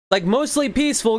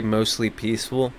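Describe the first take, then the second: First: High mocking singsong, sarcastic; mock the phrase in a high sneering voice. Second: Said in the usual way.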